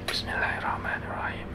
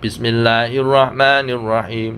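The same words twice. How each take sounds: First: The phrase is said quietly and softly. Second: The phrase is said loudly and clearly. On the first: "Bacanya doa iftitah dengan pelan"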